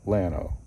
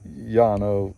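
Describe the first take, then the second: First: The word begins with an L sound. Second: The word begins with a Y sound. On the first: It is said the way locals in Texas say it. "they call Yano Lano" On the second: It is said the Spanish way. "I keep wanting to throw an accent in there"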